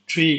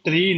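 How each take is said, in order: First: The first sound has a puff of air. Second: The first sound has no puff of air. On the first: The speaker calls it right. "ये ट्री है" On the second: The speaker calls it wrong. "ट्री नहीं है"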